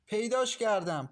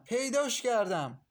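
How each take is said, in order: First: High, loud cry of discovery; loud triumphant call; excited shout. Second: Higher, slower repeated cry; drawn-out triumphant yell, pitched higher; excited shout. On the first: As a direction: shout it out, she's found it. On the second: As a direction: stretch out the second shout of پیداش کردم. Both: A narrator's reading. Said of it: "با صدای فریاد ماهرخ".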